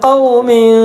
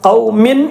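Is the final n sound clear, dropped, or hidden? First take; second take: hidden; clear. First: The final n is hidden, halfway between both. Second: The final n is pronounced fully and clearly. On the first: The speaker calls it right. "രണ്ടിന്റെയും ഇടയിലായിട്ട്" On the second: The speaker calls it wrong. "ഖൗമിൻ എന്ന് വ്യക്തമായി, അങ്ങനെ വ്യക്തമാക്കാൻ പറ്റൂല"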